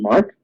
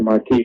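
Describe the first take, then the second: First: The word is said as one syllable, 'mark'. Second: The word is said as two syllables, 'mar-kee'. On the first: The speaker calls it right. "mark, actually is how you say it" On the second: The speaker calls it wrong. "I used to say marquee to drive my professor's mouth wide"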